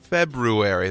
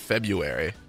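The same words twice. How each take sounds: First: The first R after 'Feb' is pronounced. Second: The first R after 'Feb' is dropped. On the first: The speaker calls it right. "But there's another R in there" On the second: The speaker calls it wrong. "A lot of people pronounce it February"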